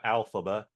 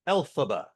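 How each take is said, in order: First: The name begins with an 'al' sound. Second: The name begins with an 'el' sound. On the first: The speaker calls it wrong. "not Alphaba" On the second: The speaker calls it right. "Elphaba with an E L"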